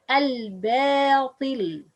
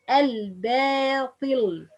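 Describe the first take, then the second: Both takes have the same delivery.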